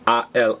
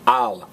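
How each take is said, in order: First: Two separate vowels are said as two words. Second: The sounds merge into one quick syllable. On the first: The speaker calls it wrong. "two words A L" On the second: The speaker calls it right. "they smash A and L together because al is faster and easier"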